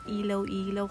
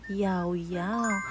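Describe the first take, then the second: First: Each part begins with an L sound. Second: Each part begins with a Y sound. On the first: The speaker calls it wrong. "ang bunong basa ko doon na ilaw-ilaw" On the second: The speaker calls it right. "Ang tamang pronunciation niya ay yaw-yaw"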